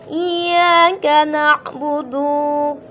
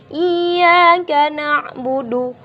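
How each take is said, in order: First: The final vowel of budu is stretched long. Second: The final vowel of budu is kept short. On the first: The speaker calls it wrong. "budu di sini dunya nih kita panjangkan. ... Salah dia" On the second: The speaker calls it right. "Seharusnya bacaannya ... Ini nggak panjang"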